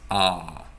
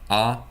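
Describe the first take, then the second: First: The vowel is said long. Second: The vowel is said short. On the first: The speaker calls it right. "it's A. It's longer" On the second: The speaker calls it wrong. "It's not A"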